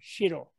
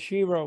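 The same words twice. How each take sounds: First: The R sound is rolled. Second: The R sound is smooth, not rolled. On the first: "if you roll the R" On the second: "we can say Shiro in English, but in American English"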